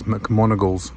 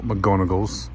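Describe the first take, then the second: First: McMonagle's said firmly with a strong M on MON; stress on the right name. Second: McGonagle's said slowly with a clear G on GON; contrasted wrong name. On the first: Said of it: "Just realised it's McMonagle's". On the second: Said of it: "not McGonagle's". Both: Shown as a demonstration.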